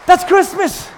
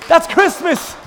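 The two takes are said the same way.

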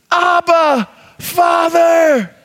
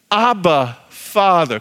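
First: Shouted, calling to a father; crying out. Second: Said in the usual way. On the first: Shown as a demonstration. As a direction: cry it out boldly. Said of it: "Crying out".

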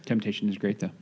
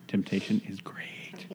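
First: Said in the usual way. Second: Whispered. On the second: Shown as a demonstration. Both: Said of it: "repeats in whisper".

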